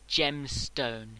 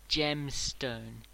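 No difference in how they are said.

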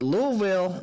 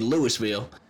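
First: The syllables are squashed and reduced. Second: Every syllable is said fully, as spelled. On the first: The speaker calls it right. "you just want to drop it down" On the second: The speaker calls it wrong. "That's exactly how it's spelled. But that's not how you say it"

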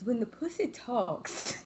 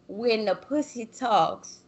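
First: It is said in an imitated put-on voice. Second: It is said in the speaker's normal voice.

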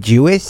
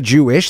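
First: The word is said with a lisp. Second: The word is said plainly, without a lisp.

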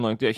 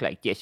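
First: The speaker uses an ordinary natural voice. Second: The speaker uses an altered, odd character voice. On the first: "instead of talking like this" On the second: "he would talk like this a lot"

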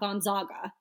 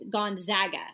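First: The middle syllable does not sound like 'Zags'. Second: The middle syllable sounds like 'Zags'. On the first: The speaker calls it wrong. "not Gonzaga" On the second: The speaker calls it right. "you say Zags at the end"

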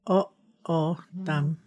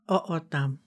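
First: It is said slowly, syllable by syllable. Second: It is said smoothly at normal speed. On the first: "break that down? Like sort of syllables" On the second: "say that at regular speed one more time"

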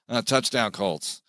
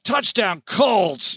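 First: It is said quietly and flatly. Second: It is said with upset emphasis.

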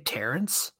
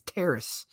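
First: The name has an n sound before the end. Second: The name has no n sound before the end. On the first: The speaker calls it wrong. "you're wrong. There's no N in his name" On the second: The speaker calls it right. "It is Terrace"

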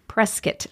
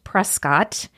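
First: It is said the way residents say it. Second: It is said the way the spelling suggests. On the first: This is how people who live there say it. The speaker calls it right. "it is pronounced Prescott by the locals" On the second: This is how an outsider would read the name. The speaker calls it wrong. "It looks like it would be pronounced Prescott"

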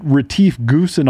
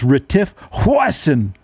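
First: The surname begins with a hard G sound. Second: The surname begins with an H sound. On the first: The speaker calls it wrong. "you guys are saying Retief Goosen all wrong" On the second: The speaker calls it right. "It's Retief Hoisin"

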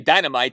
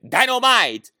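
First: It is said plainly, in an ordinary voice. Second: It is said exaggerated, imitating J J Evans.

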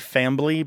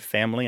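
First: The word has an added b sound. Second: The word has no b sound.

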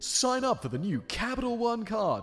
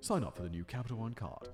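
First: It is said in an American accent. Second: It is said in a British accent.

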